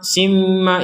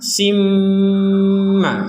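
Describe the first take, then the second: First: The m is short with little nasal hum. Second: The m hums through the nose, held long. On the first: The speaker calls it wrong. "ini kurang ada dengungan" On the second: The speaker calls it right. "Sim dengung dulu baru ma"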